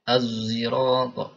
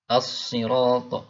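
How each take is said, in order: First: The word starts with a heavy z sound. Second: The word starts with a plain emphatic s sound. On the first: This is another reading tradition. "Bacanya z ya az tapi tebal ya" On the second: This is the usual reading tradition. "qiraah hafiz as-sirat biasa ya"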